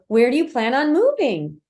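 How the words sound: The pitch rises at the end of the question. "That's an upswing"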